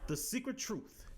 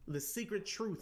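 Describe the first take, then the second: First: It is said in a dramatic voice. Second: It is said in a plain voice.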